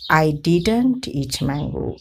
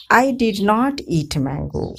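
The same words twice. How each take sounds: First: Said in the usual way. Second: I did not eat mango, with did not said in full and not leaned on; stress on not. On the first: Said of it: "otherwise the contracted form is used". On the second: Shown as a demonstration. Teacher contrasting emphatic full form with contraction. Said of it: "When not is emphasized, we use the full form did not".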